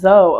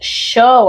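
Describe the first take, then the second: First: The name begins with a 'z' sound. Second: The name begins with an 'sh' sound. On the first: The speaker calls it wrong. "I thought that was Zoe" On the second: The speaker calls it right. "it's pronounced show"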